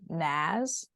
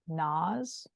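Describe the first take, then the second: First: The A vowel is drawn out long. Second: The A vowel is kept short. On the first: "really elongate the A and they'll say" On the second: "but it's more like"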